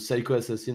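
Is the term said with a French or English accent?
English. The term is said with an English accent.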